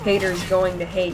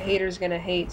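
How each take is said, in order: First: The words 'going to' are said in full. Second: The words 'going to' are reduced to 'gonna'. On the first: The speaker calls it wrong. "you don't say haters going to hate" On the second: The speaker calls it right. "You say haters gonna hate"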